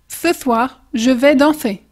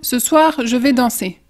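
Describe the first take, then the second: First: The S sounds are lisped with tongue between teeth. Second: The S sounds are plain and hissing. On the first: "Tu mets toujours ta langue entre les dents, mais tu souffles plus fort" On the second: "Si on veut dire par exemple"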